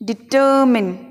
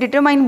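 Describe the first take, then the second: First: The word ends with a short 'min' sound. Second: The word ends with a 'mine' sound. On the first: The speaker calls it right. "हमें बोलना है डिटर्मिन" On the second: The speaker calls it wrong. "हम इसे डिटरमाइन बोलते हैं लेकिन ये बिल्कुल गलत उच्चारण है"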